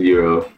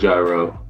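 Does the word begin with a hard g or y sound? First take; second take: y; hard g. First: The word begins with a y sound. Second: The word begins with a hard g sound. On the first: The speaker calls it right. "it's a euro" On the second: The speaker calls it wrong. "I hate when people mispronounce it. It's not a gyro"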